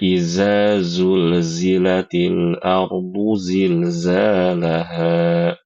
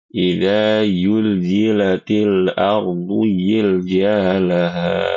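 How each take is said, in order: First: Every zal and zai is said as z. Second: The zai sounds are said as y. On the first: "Semuanya dibaca dengan huruf zai" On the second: "mau membaca huruf zai itu seperti huruf ya"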